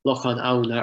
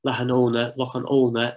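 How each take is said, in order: First: Auna opened with an "ow" sound; standard form. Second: Lahanona with a long "oh" in "ona"; local pronunciation. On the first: Lecturer stating the name's definite form, careful pronunciation. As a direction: Lochan Auna with "ow-na" at the end. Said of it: "form of the name". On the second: Lecturer showing how the name is pronounced, local form. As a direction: Lochan Ona ending "oh-na", not "ow-na". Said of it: "as it's pronounced". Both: Shown as a demonstration.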